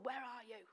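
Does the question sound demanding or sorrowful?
demanding. The question sounds harsh and demanding. The one asking is angry and accusing. The speaker calls it wrong. "He doesn't go, where are you? He doesn't do that"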